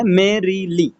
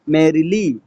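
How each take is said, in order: First: merrily slowly split into three beats, मे-री-ली; syllable by syllable. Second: Said in the usual way. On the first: Shown as a demonstration. Teacher giving a dactyl example, merrily slowly syllable by syllable. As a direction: separate merrily into मे, री, ली. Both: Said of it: "stressed syllable और दो unstressed syllable".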